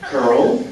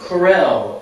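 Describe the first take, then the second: First: It sounds like one syllable, curl. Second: It sounds like the brand name Corel. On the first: Many people say it this way. "people pronounce it like this, curl" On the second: Someone else once said it this way. "I heard somebody actually, this is true, Corel"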